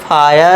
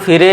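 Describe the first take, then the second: First: It has an 'ai' vowel and a silent final 'e'. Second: It has an 'i' vowel and a sounded final 'e'. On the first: The speaker calls it right. "इसे पढ़ेंगे फायर" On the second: The speaker calls it wrong. "इसे हम फिरे या वीरे नहीं पढ़ेंगे"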